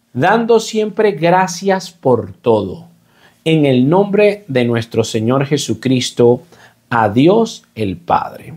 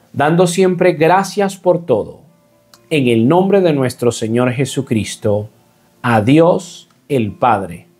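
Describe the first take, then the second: No difference in how they are said.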